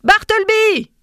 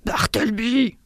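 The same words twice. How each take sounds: First: Loud, high-pitched shouted call; louder, insistent call; raising the voice. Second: Hoarse, whispery mock shout; strained, breath-heavy yell at no great volume; vociferating. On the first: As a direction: shout the name to summon him. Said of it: "dis-je en élevant le ton". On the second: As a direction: vociferate it with the volume held back. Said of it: "vociférai-je". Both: A narrator's reading.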